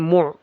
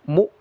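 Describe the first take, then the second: First: It ends in a throaty pharyngeal sound. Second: It ends in a light glottal stop. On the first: The speaker calls it wrong. "jangan mu" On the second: The speaker calls it right. "Mu bedakan dengan ain ini hamzah"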